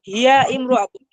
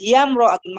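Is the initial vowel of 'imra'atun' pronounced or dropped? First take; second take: pronounced; dropped. First: The vowel before 'mra' is pronounced separately. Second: The vowel before 'mra' is dropped and linked. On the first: The speaker calls it wrong. "এভাবে হবে না" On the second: The speaker calls it right. "মাঝখানে যে আলিফটা আছে এটা উচ্চারণ হবে না"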